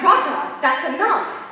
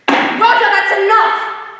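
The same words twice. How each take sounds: First: It is said gently, without real anger. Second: It is shouted loudly, sounding really angry.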